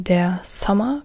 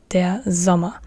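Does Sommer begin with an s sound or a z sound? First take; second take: s sound; z sound. First: Sommer starts with a voiceless s sound. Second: Sommer starts with a voiced z sound. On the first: The speaker calls it wrong. "you don't say der Sommer" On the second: The speaker calls it right. "z, z, not s, but z"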